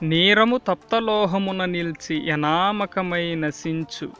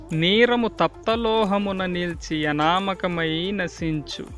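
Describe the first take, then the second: Both takes have the same delivery.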